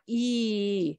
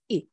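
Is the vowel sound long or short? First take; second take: long; short. First: The vowel is drawn out long. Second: The vowel is cut short. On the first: The speaker calls it wrong. "It's not E" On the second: The speaker calls it right. "But it is short"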